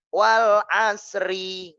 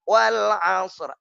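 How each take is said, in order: First: The phrase ends with an added ri syllable. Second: The phrase ends on a bare r consonant. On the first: The speaker calls it wrong. "Enggak, enggak, enggak. Salah" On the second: The speaker calls it right. "Ri-nya jangan dibaca"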